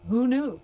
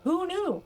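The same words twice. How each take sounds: First: Said in the usual way. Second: High, amused second take; higher mock wonder. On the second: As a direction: throw it up high with a laugh.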